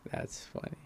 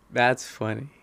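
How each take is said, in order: First: Whispered aside to himself. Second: Said in the usual way. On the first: Real, not acted. Amused comment repeated to himself in a whisper. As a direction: breathe it out in a whisper.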